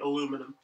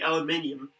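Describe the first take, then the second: First: It has four syllables, ending in -inum. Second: It has five syllables, ending in -inium. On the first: The speaker calls it wrong. "they say aluminum" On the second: The speaker calls it right. "now we say aluminium"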